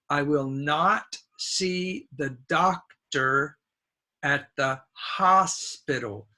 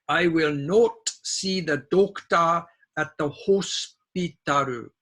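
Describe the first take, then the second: First: It is said with a native English accent. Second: It is said with a Japanese katakana-style accent. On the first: The speaker calls it right. "correct English would be" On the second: The speaker calls it wrong. "this is a Japanese pronunciation"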